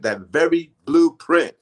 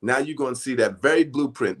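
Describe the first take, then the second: First: "that very blueprint" repeated slower, higher and louder; stress on blueprint. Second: Said in the usual way. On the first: Shown as a demonstration. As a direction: lean hard on "very blueprint" to drive it home.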